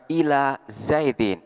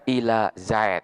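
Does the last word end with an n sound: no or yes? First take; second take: yes; no. First: The last word ends with an -in sound. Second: The last word ends on a bare consonant. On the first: The reading continues without stopping. "akan dibaca ila Zaidin" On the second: The reading stops on this word. "Manakala diwakafkan, tanwinnya di sini dihilangkan"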